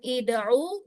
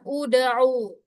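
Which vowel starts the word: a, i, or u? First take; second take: i; u. First: The word begins with an i vowel. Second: The word begins with an u vowel. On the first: The speaker calls it wrong. "bukan ida'u" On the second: The speaker calls it right. "ain berharokat dhammah, maka dia dibaca uda'u"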